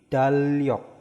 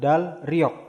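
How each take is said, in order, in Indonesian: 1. Kedua konsonan di tengah dibaca L. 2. Konsonan di tengah dibaca L lalu R. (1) "tapi dalyok. L semua ya" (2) "bukan dalryok"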